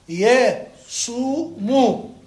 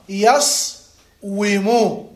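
First: The middle has a long u, with no w. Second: The ṣ is unvoweled, followed by a wu sound. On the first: This is the actual spoken form. "فتح ضم سكون ضم" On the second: This is the underlying original form. "أصله يصومو، فتح سكون ضم ضم"

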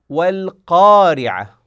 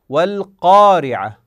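The two takes are said the same way.

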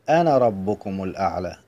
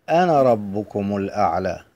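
The two takes are said the same way.

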